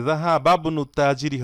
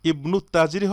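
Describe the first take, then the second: First: জাহাবাবনু joined, ba straight into b; silent hamza. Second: ইবনু তাজিরি starting on a clear i; hamza sounded. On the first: Teacher quizzes with the second option, জাহাবাবনু linked. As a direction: drop the i of ibnu in জাহাবাবনু. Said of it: "নাকি জাহাবাবনু তাজিরি হবে". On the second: Teacher quizzes with the first option, ইবনু unlinked. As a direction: begin ইবনু as its own word. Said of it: "এখানে কি হবে দেখুন". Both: Shown as a demonstration.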